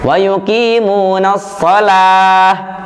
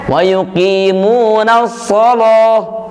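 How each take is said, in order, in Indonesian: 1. Bunyi L pada kata terakhir terdengar ringan dan tipis. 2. Bunyi L pada kata terakhir terdengar berat dan tebal. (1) "kita bacanya wa yuqimunas shalah, la" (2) "Imam Warash membacanya ... lo, tebal"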